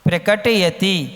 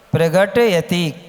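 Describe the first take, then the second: First: The consonant after 'pra' is a k sound. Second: The consonant after 'pra' is a g sound. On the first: The speaker calls it right. "प्रकट है, प्रगट नहीं है" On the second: The speaker calls it wrong. "क्या बोलते हो आप लोग?"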